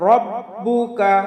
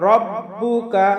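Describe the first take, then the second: No difference in how they are said.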